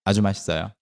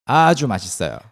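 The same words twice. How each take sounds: First: It is said in a plain, matter-of-fact tone. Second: It is said emphatically with 아주 drawn out. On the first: It is simply very delicious. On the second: It is extremely delicious.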